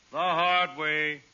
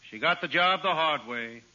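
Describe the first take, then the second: First: The hard way drawn out very slowly; slow knowing repeat. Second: Said in the usual way. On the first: Acted. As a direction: linger over each word for the joke.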